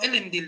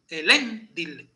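First: The stress is not on the second-to-last syllable. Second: The stress is on the second-to-last syllable. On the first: The speaker calls it wrong. "No Elendil" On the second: The speaker calls it right. "Porque la segunda es fuerte"

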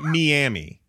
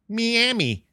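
First: Miami is said with an English pronunciation. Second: Miami is said with a Spanish pronunciation. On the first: The speaker calls it right. "it's not Miami" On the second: The speaker calls it wrong. "That would be the Spanish pronunciation of it"

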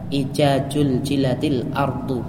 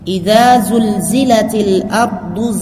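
First: The z sounds are pronounced as j. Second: The z sounds are pronounced as z. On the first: The speaker calls it wrong. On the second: The speaker calls it right.

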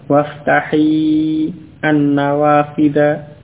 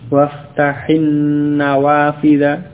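First: The verb's final ya vowel is kept before the article. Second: The final ya vowel is dropped and words run together. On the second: "kalau bersambung maka dhamir ya ... ini tidak diucapkan"

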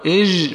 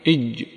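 First: The j is loose with continuing sound. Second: The j is a full stop with no airflow. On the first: The speaker calls it wrong. "الأول خطأ في الصفة" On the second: The speaker calls it right. "إج هكذا اختبر"

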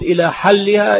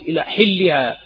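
First: The vowel after the h sound is a. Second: The vowel after the h sound is i. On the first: Until it is removed. The speaker calls it right. "بفتح الحاء" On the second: Until it becomes permissible. The speaker calls it wrong. "وكسر الحاء لحن فاحش يغير المعنى"

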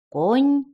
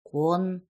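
First: The final consonant is pronounced soft. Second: The final consonant is pronounced hard. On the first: "Сначала смягчай" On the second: "а потом не смягчай"

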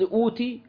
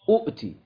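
First: The word begins with a long vowel, one glottal stop. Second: The word has two glottal stops at the start.

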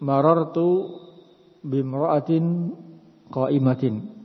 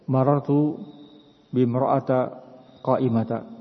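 First: The nouns end with a nasal -in sound. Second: The nouns end with a plain -a sound. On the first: The speaker calls it right. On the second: The speaker calls it wrong.

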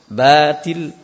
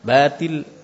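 First: The first syllable is heavy, with the tongue raised. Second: The first syllable is light, with the tongue flat. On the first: The speaker calls it wrong. "Jadi bukan batil" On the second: The speaker calls it right. "Atau lisannya mendatar"

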